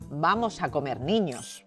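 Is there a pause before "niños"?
no. There is no pause before niños.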